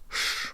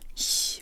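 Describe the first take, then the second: First: The sh is made with a low tongue. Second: The sh is made with a high tongue. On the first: The speaker calls it right. "but sh with a low tongue" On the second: The speaker calls it wrong. "Not sh with a high tongue"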